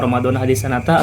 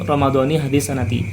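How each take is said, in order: First: The words end with an 'a' vowel. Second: The words end with an 'i' vowel. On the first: The speaker calls it wrong. "ya sah-sah saja puasanya" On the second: The speaker calls it right. "lebih baik itu"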